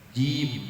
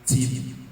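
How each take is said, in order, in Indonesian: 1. Bunyi j rapat, tanpa nafas yang keluar. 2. Bunyi j bocor, dengan nafas yang keluar.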